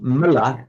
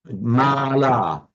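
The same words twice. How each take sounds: First: Both vowels in the word are short. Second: Both vowels in the word are long. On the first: It means a stain. "both short" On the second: It means a garland. "both long"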